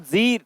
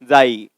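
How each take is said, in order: First: The vowel is a long 'ee' sound. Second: The vowel is an 'ai' sound. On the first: The speaker calls it right. "तो इसको जी read करेंगे" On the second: The speaker calls it wrong. "ना कि जाई"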